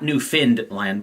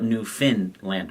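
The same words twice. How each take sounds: First: It is said the way it is spelled. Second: It is said the way locals say it. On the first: The speaker calls it wrong. "Not Newfoundland" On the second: The speaker calls it right. "the authentic way to pronounce this is Newfoundland"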